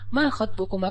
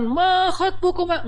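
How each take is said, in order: First: It is said in a soft, gentle tone. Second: It is said in a harsh, preachy tone.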